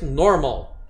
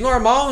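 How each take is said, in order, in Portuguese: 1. A sílaba tônica está na primeira sílaba. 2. A sílaba tônica está na última sílaba. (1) "você muda a tônica... a tônica é antes da nossa em português" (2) "português normal"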